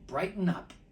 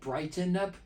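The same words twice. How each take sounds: First: The word is said in a relaxed, everyday way. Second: The word is said in a careful, over-precise way. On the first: "I'm going to pronounce it the normal way" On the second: "I'm sounding like a teacher here"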